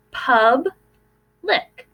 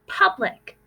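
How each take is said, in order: First: PUB and lic said apart, syllable by syllable; split into syllables. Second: Said in the usual way. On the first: Shown as a demonstration. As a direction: say "Pub-lic" in two clear beats, PUB then lic. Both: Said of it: "Let's take a look at the word".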